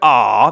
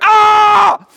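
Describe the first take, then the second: First: It is a soft, adoring sigh. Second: It is a frightened, alarmed cry.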